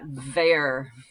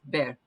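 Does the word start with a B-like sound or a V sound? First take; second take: V sound; B-like. First: It starts with a buzzing V sound. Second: It starts with a soft B-like sound. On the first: The speaker calls it wrong. "you don't usually have a V, so it's not ver" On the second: The speaker calls it right. "it's just ver"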